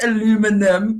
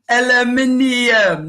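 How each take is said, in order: First: It is said with an American pronunciation. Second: It is said with a British pronunciation. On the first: The speaker calls it wrong. "not aluminum" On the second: The speaker calls it right. "We have aluminium"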